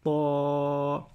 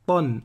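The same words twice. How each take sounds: First: TA held long and level, no n; prolonged vowel. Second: TAN with a short a and sounded n; no prolongation. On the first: Teacher contrasting it with tan, vowel prolonged. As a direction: stretch the a of "ta" on a steady tone. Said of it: "alors que là, c'est ta". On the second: Teacher contrasting it with long ta, no prolongation. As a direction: close "tan" on n without stretching the a. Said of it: "On ne prononce pas la prolongation". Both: Shown as a demonstration.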